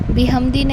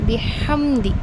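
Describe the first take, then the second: First: The h sound is weak. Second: The h sound is clear and strong. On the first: The speaker calls it wrong. "नहीं होगा" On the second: The speaker calls it right. "यहाँ पर हा पर हमने ध्यान देना है"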